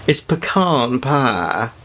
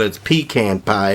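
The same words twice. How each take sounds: First: Slow Deep South drawl, pecan pie as puh-KAHN pah; Deep South pronunciation. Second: Pecan pie as PEE-can pie; Brooklyn pronunciation of pecan. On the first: Showing how Deep South folks say it, drawn-out Southern puh-KAHN pah. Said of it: "if you're from the Deep South". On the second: Showing how Brooklyn says it, pecan as PEE-can. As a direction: say pecan with a long 'ee' and 'can'. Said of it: "if you're from Brooklyn". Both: Shown as a demonstration.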